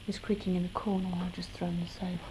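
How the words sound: It is said aloud in full voice.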